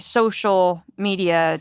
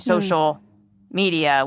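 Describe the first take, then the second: First: The word social carries the stress. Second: The word media carries the stress. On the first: The focus is on connecting with people. "emphasis on the word social" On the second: The focus is on distributing content. "and the word media"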